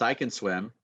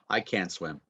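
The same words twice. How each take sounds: First: "can" weakened to "kun", weight on "swim"; reduced can. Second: "can't" with a full open vowel, T swallowed. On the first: Teacher answering her own example question, reduced can. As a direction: slip over "can" with an uh vowel. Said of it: "Can changes to kun". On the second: Teacher contrasting the negative for students, full can't. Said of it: "so there's a difference". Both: Shown as a demonstration.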